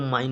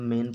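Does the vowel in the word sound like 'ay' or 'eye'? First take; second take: eye; ay. First: The vowel sounds like 'eye'. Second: The vowel sounds like 'ay'. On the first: The speaker calls it wrong. "इसको माइन नहीं पढ़ेंगे" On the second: The speaker calls it right. "मैन पढ़ेंगे"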